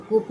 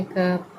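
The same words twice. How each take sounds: First: कूप with a long oo vowel; wrong "cup" pronunciation. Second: कप with a short "uh" vowel; correct "cup" pronunciation. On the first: Teacher shows learners the reading to avoid, mispronounced कूप with "oo". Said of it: "हम कूप नहीं कहेंगे". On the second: Teacher gives learners the right reading, कप with short "uh". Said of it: "क्या कहेंगे?". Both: Shown as a demonstration.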